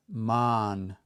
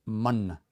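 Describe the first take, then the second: First: "man" with a long, held "ah" vowel. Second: "Man" with a short "uh"-like vowel. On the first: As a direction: draw out the middle of "man". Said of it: "That long A at the end". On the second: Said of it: "make that short A sound". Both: Shown as a demonstration.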